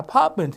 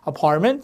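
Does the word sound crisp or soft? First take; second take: crisp; soft. First: It is said in a crisp British accent. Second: It is said in a soft American accent. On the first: "영국식은 약간 apartment 이렇게 약간 딱딱하게 나요" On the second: "미국식이 되면 apartment 이렇게 부드러운 게 나는데"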